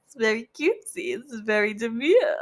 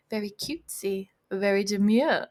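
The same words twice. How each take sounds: First: Mock-demure catchphrase, breaking into laughter; cutesy catchphrase. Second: Said in the usual way. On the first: Reader jokes about doing makeup, mock-cutesy. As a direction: put on a cutesy show of being demure, giggling.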